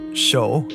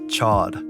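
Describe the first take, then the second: First: The name ends in a long 'oh' vowel. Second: The name has a short 'o' and final d. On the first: This is the intended original pronunciation. "It's supposed to sound like show" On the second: This is how the show pronounces it. "in the show, his name is pronounced as Chod"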